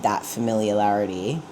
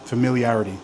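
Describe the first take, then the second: First: Familiarity said with an extra L, fəmɪljəlæɹəti; familiarity with a stray L before the last syllables; mispronounced. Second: Familiarity said fəmɪliæɹəti, no extra L; familiarity with clean i-a-r-i-ty ending; correct pronunciation. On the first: Real, not acted. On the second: Shown as a demonstration. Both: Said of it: "putting an extra L in there".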